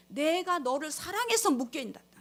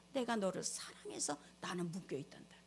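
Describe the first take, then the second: First: Said in the usual way. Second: Low hushed whisper, stress on 내가; soft whisper, God speaking; whispered love. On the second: Acted. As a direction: whisper it as God's confession of love. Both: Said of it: "하나님의 음성이 들려요".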